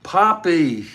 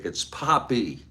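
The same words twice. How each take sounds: First: Poppy shouted high and loud, falling at the end; excited cry. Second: Said in the usual way. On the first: Retold or imitated. Daughter greets her father with a joyful cry of Poppy. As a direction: call out Poppy with delighted surprise. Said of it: "P O P P Y". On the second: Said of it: "That was a mistake".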